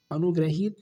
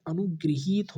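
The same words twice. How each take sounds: First: अनुग्रहित with ra and short hi, the error; wrong form. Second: अनुगृहीत with ri and long hee; correct form. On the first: Teacher reading the wrong form to students, plainly. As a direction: say अनुग्रहित as anugrahit. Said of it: "अनुग्रहित नहीं होता है". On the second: Teacher giving the correct word to students, clearly. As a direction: say अनुगृहीत as anugriheet. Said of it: "अनुगृहीत होता है". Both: Shown as a demonstration.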